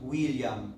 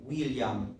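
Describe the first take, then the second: Both takes have the same delivery.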